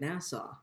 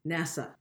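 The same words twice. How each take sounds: First: It is pronounced like the town Nassau. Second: It is pronounced unlike the town Nassau. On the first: The speaker calls it wrong. "You're saying it like the town in the Bahamas" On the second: The speaker calls it right. "There you go"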